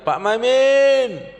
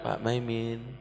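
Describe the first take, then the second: First: The name is called out loudly. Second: The name is called at moderate volume. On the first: The person being called is still far away. "itu tandanya masih jauh" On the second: The person being called is closer. "Kalau Pak Maiminnya lebih dekat"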